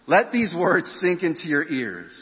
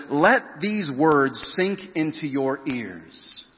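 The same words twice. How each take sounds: First: Higher pitched insistent command; the parent telling kids to listen up; firm parent. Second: Very slow, each word set apart; Jesus demanding full attention, slow and firm. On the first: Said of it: "Parents, you ever said that to your kids?". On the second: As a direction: drive the words home slowly. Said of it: "he's saying this really firmly". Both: Acted.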